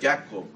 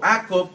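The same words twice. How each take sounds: First: The name begins with a Y sound. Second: The name begins with a vowel, no Y. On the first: "con una lo que suena como Y" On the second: "o sin la Y"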